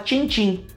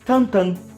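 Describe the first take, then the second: First: The name has nasal 'i' vowels, Portuguese style. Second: The name has nasal 'an' vowels, French style. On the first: This is how the name is adapted locally. "a gente fala Tintim, que é como está escrito" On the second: This is how the original name sounds. "a pronúncia de Tintim em belga é Tantan"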